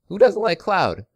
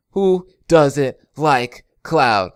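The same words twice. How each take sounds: First: Quick, high rhetorical question; excited. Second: Slow, louder, stretched out; drawn out. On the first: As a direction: toss it off brightly. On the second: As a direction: drag every word out for emphasis. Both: Real, not acted.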